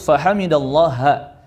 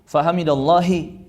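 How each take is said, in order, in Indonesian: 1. Frasa itu diakhiri vokal a. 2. Frasa itu diakhiri vokal i. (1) "harus fahamidallaha" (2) "Tidak boleh dibaca"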